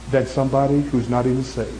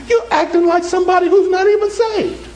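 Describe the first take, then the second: First: Said in the usual way. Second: High-pitched, emphatic preaching cry; preacher's shout. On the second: Real, not acted. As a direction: drive it home in a raised, high voice. Preacher hammers repeated point home.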